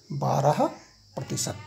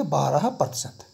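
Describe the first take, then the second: First: Said in the usual way. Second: बारह प्रतिशत read slowly, word by word; slow demo reading. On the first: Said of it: "ऐसे पढ़ते हैं". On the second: Shown as a demonstration. Teacher shows the class how to read it, slowly. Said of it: "इसको हम क्या पढ़ेंगे?".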